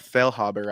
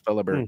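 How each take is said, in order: First: The h sound in the middle is pronounced. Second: The h sound in the middle is silent. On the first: The speaker calls it wrong. "I think I'm saying that right" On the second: The speaker calls it right. "So the H is silent"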